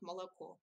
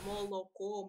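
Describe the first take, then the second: First: The unstressed vowels are reduced toward an 'ah' sound. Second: Every vowel is pronounced as a full, distinct 'o'. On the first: This is how most speakers say it. "actually it is something in between, as I say" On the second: This is how people from one region say it. "pronounce o distinct distinctly"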